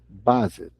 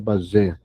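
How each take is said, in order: First: The name is pronounced the English way. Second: The name is pronounced the French way. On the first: The speaker calls it right. "a pronúncia correta é base, ele era em inglês" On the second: The speaker calls it wrong. "Aqui a gente pronuncia base, não, não é francês"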